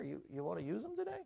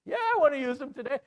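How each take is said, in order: First: Soft, quick, rising question; hushed, tentative acted suggestion; sly suggestion. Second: High, loud, fast retort; hammed-up royal anger, rushed; angry king. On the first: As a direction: offer it softly as a sly servant. Servant slyly suggests the gallows. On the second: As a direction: fire back as an enraged king. Angry king answers the suggestion.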